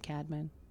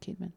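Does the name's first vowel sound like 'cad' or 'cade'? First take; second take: cad; cade. First: The first syllable has a short 'a' vowel. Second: The first syllable has a long 'ay' vowel. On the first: The speaker calls it wrong. "Some people say Cadman" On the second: The speaker calls it right. "K-A-Y-D is the way you're supposed to pronounce it"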